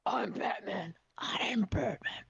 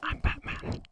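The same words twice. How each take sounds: First: Lightly lowered Batman line, slow and hushed at the end; deep Batman voice. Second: Hushed gravel-free Batman line, tried on request; Batman whisper. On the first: Shown as a demonstration. Streamer demonstrating the Batman voice to her guest, hushed. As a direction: show how Batman says it. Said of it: "So you'll say it in a deep voice first". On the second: Pretend. Streamer's guest trying the Batman line, whispered. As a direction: whisper I'm Batman like the caped hero. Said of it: "say it in a deep voice first".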